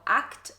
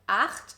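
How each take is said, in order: First: The ch is said as a hard k sound. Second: The ch is a raspy sound from the throat. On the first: The speaker calls it wrong. "German learners pronounce the C H sound as a K" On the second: The speaker calls it right. "produced here in the back of your throat"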